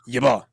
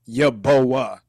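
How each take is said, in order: First: The last part is one single syllable. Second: The last part is split into two syllables. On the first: The speaker calls it right. "So it's like one syllable" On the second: The speaker calls it wrong. "not yaboa"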